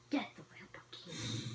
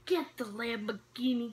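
First: Unvoiced, much softer aside; hushed repeat of the advice; whisper. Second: Said in the usual way. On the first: Real, not acted. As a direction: breathe the tip out under the breath. Repeats tip, then whispers it.

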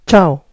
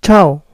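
First: Italian ciao, CH sound. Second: Ciao as one "chow" syllable, falling; Italian ciao, CH sound. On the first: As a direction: model ciao for learners. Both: Shown as a demonstration. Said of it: "En italiano".

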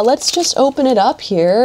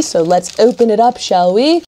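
First: Said in the usual way. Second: Playful, badly faked British accent; amateur mock-British accent; terrible British accent. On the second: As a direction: put on a hammy British accent. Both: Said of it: "my terrible British accent there".

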